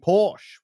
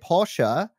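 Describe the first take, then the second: First: The name is pronounced the British way. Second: The name is pronounced the German way. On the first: "in Britain, people who represent Porsche will say Porsche" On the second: "In Germany, they'll say Porsche"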